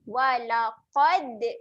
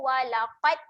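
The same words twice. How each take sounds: First: The final d has a slight bounce. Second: The final d stops flat with no bounce. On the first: The speaker calls it right. "lantunkan sedikit" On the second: The speaker calls it wrong. "Kalau kita tak lantun"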